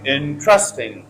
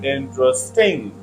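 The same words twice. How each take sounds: First: The stress is on the second syllable. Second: The stress is on the third syllable. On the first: "If you put stress on second syllable ... as many people say" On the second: "if you put stress on third syllable"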